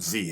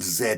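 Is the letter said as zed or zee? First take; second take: zee; zed. First: The letter is said as American zee. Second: The letter is said as British zed.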